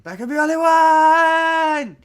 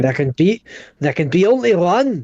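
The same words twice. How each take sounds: First: High, loud, sustained mock scream; Lindsay Lohan. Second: Louder, higher, lightly declaimed movie line; mock heroic quote. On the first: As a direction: shriek it and hold the final word. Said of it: "do it like Lindsay Lohan". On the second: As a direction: declaim it with a raised "only". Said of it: "you're saying it like a German".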